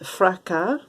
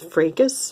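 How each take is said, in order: First: It is pronounced with French sounds. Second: It is pronounced with English sounds. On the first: "In French, it is pronounced" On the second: "In English, I suppose"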